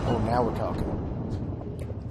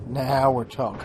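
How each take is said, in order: First: Drawn-out, pleased and slow; slow satisfied drawl. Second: Said in the usual way. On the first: Real, not acted. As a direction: savor each word slowly.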